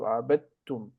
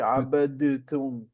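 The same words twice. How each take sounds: First: The d and t merge into one sound. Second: The d and t are pronounced separately. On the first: The speaker calls it right. "So you merge them into abadtum" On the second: The speaker calls it wrong. "You don't say abadtum, dit, dit"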